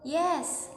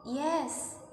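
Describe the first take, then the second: First: "yes" lifted high and louder like a question; question tune. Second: "Yes" said as a plain falling statement; statement tune. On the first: Teacher showing question intonation on "yes". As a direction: ask "yes" with a rising tune. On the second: Teacher showing statement intonation on "Yes". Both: Shown as a demonstration. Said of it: "statement versi question".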